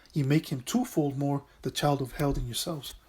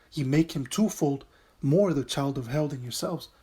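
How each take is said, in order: Both takes have the same delivery.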